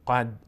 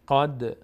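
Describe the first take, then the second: First: The final d stops flat without any echo. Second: The final d ends with a slight echoing bounce. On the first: The speaker calls it wrong. "قد نمیگیم" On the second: The speaker calls it right. "دال مقداری میلرزه"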